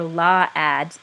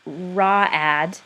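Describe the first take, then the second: First: "law ad" said slowly with a clear L at the start; misread with L. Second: "raw ad" said slowly with a clear R at the start; misread with R. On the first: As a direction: sound out "law ad" like a struggling reader, L first. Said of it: "right, or law ad". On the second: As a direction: sound out "raw ad" like a struggling reader, R first. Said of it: "But if they said, um, for example". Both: Shown as a demonstration.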